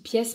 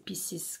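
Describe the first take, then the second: First: The name is said like the French word pièce. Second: The name is said like the English word pieces. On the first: This is how the speaker usually says it. The speaker calls it wrong. "je dis pièce" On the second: This is how the name is really said. The speaker calls it right. "je crois que c'est Pieces que ça se dit"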